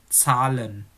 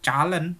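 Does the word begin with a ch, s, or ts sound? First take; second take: ts; ch. First: It begins with a hissing ts sound. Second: It begins with a ch sound. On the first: The speaker calls it right. "tapi Zahlen" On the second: The speaker calls it wrong. "bukan calen"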